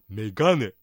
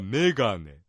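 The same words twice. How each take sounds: First: The accent falls on the second syllable. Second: The accent falls on the first syllable. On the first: This is how the Niigata dialect says it. "新潟弁ですと2 文字目のガにアクセントを置いてメガネ" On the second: This is how standard Japanese says it. "標準語ではメガネ、ね、目にアクセントを置いてますが"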